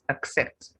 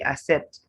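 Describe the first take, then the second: First: The double C is said as k plus s. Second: The double C is said as a plain s. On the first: The speaker calls it right. "It's accept" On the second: The speaker calls it wrong. "Many people would say accept. That's wrong"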